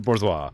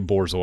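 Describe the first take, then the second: First: It is pronounced like the French word bourgeois. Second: It is pronounced borzoi, not the French way. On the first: The speaker calls it wrong. "I thought it was French, so I pronounced it bourgeois" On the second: The speaker calls it right. "I heard somebody say bourgeois"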